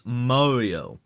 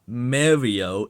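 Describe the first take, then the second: First: MARIO said as MOR-ee-oh, drawn out; correct pronunciation. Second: MARIO said as MAIR-ee-oh, drawn out; wrong pronunciation. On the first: Shown as a demonstration. Correcting a YouTuber, proper MOR-ee-oh pronunciation. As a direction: say Mario with a rounded "more" first vowel. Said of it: "it's Mario". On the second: Retold or imitated. Correcting a YouTuber, wrong MAIR-ee-oh pronunciation. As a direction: say Mario with a "mare" first vowel. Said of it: "it's not Mario, it's Mario".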